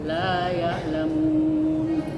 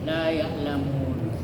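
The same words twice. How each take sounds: First: The vowel is stretched for four beats. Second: The vowel is stretched for two beats. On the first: "Kemudian sedang, dua alif atau empat harakat" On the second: "satu alif atau dua harakat. Ini yang paling pendek"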